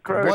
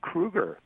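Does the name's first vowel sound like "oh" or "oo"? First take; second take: oh; oo. First: The first vowel sounds like "oh". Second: The first vowel sounds like "oo". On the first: The speaker calls it wrong. "It's not Kroeger. It's not like the grocery store" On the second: The speaker calls it right. "It's like the horror film character"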